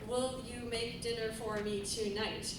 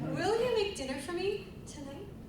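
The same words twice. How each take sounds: First: The voice stays flat and robotic throughout. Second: The voice rises and falls, tapering at the end. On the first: The speaker calls it wrong. "you don't talk like a robot like" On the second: The speaker calls it right. "just think about your inflection"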